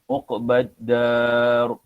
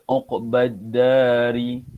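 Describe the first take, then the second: First: The word ends on a stopped r sound. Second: The word ends with a short i vowel. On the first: The speaker calls it right. "kita baca dia seolah-olah dia tu mati" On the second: The speaker calls it wrong. "Bila berhenti kita tak baca uqbadari. Kita tak baca macam tu"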